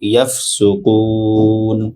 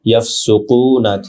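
First: The word ends on n after a lengthened vowel. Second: The word ends with a short final vowel. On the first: The reciter stops at this word. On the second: The reciter continues into the next word.

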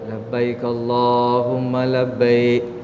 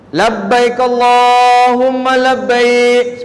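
First: It is said at half the loudness. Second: It is said loudly.

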